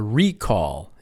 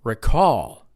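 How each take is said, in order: First: The stress is on the first syllable. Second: The stress is on the second syllable. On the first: It names a company bringing back a defective product. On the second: It means to remember.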